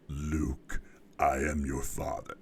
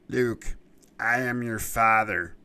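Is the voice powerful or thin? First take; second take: powerful; thin. First: The voice is deep and powerful. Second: The voice is thin and lacks power. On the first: The character seems imposing and menacing. The speaker calls it right. "you need a really powerful vocal presence" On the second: The character would seem less imposing. The speaker calls it wrong. "if it had been a different voice"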